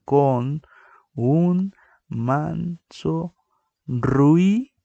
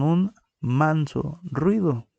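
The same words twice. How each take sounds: First: "un manso ruido" very slow and higher, "ruido" louder; slow, higher teaching count; syllable-by-syllable count. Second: Said in the usual way. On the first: Shown as a demonstration. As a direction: stretch "ruido" as two syllables "ru-i". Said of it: "Si nosotros la contáramos normalmente". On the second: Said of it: "La palabra ejemplo es con".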